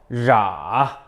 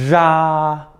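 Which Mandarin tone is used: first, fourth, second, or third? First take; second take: third; first. First: It is said with the third tone. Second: It is said with the first tone.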